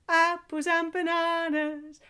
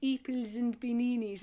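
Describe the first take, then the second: First: The words keep their normal mixed vowels. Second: Every vowel is replaced by an ee sound.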